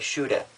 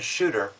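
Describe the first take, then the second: First: It is said with a Boston accent. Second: It is said with an ordinary, non-Boston accent. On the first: "you say shooter" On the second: "instead of saying shooter"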